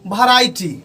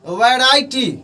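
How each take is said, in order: First: The first sound is an aspirated bh. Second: The first sound is a v. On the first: The speaker calls it wrong. "भी का उच्चारण जो करते हैं भ के तरह करते हैं" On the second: The speaker calls it right. "इसका मेन उच्चारण जो होना चाहिए"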